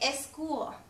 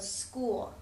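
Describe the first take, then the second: First: An extra E vowel comes before the S. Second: The word starts directly with the S sound. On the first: The speaker calls it wrong. "a common mistake a lot of your uh, English learners might make is they'll say eschool" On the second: The speaker calls it right. "in English we just start with that S sound"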